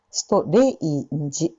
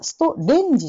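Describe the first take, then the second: First: ストレインジ with the ei glide; エイの二重母音. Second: ストレンジ with a plain katakana e; the wrong ストレンジ; カタカナのストレンジ; katakana strange. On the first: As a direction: slide e into i in ストレインジ. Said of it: "じゃなくて". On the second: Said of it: "ストレンジじゃなくて". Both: Shown as a demonstration.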